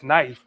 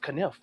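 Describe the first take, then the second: First: The starting K is silent. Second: The starting K is pronounced. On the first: "why is the K silent?" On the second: "K N I F E. That's kniff"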